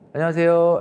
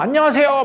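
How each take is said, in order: First: The greeting is said quietly, with little energy. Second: The greeting is said loudly, with high energy. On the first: The person lacks enthusiasm. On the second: The person is enthusiastic.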